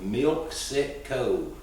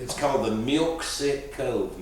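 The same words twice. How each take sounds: First: Slow, spelled-out name. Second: Said in the usual way. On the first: Shown as a demonstration.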